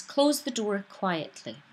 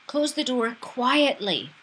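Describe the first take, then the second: First: Said in the usual way. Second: Louder, higher, slow and demanding; angry command. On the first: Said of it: "an example of the w-, sentence". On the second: Shown as a demonstration. Teacher showing an angry demand to shut the door. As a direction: bark it as a furious order. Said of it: "So we know that it's angry, demanding".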